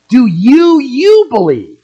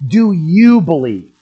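First: "Do you, you believe?" with the second "you" hit hard, much higher and louder; emphatic doubled you. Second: Said in the usual way. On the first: Shown as a demonstration. Preacher pressing the question home to each listener, "you" hammered high and loud. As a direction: press the repeated "you" like a personal challenge. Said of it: "This is emphatic". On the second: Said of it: "The construction in the Greek is emphatic".

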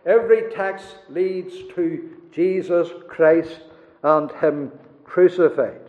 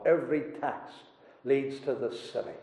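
First: Emphatic restatement. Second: Soft and low, half to himself; quiet echo. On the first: Preacher proclaiming to the congregation, emphatic. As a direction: drive the point home to the congregation. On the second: Preacher echoing the old divine, hushed. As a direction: let the line sink to a hush. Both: Acted.

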